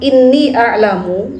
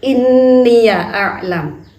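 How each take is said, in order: First: Inni runs straight into the next word. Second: Inni is followed by an added ya syllable.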